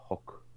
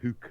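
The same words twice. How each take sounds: First: The vowel is a short o sound. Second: The vowel is a long oo sound. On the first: This is how it is not said where the speaker is from. "and not o" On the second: This is how it is said where the speaker is from. "the double O sound is often uh, oo"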